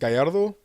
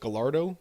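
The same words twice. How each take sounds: First: The name has its original Spanish pronunciation. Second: The name has an anglicized English pronunciation. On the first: This is how the family says the name. "my mom's maiden name is" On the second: This is an easier version given to outsiders.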